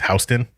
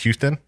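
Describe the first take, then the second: First: The name is said the New York way. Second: The name is said the Texas way. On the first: It names the place in New York. "in New York or on the East Coast it's Houston" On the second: It names the city in Texas. "in Texas it's Houston"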